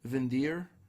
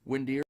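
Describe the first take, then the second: First: The name is said with a German-style pronunciation. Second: The name is said with a plain English-style pronunciation. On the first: "almost as if like a like a German type pronunciation" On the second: "Some people said it's just pronounced Windir"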